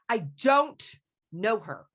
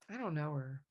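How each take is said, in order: First: It sounds angry. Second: It sounds sad.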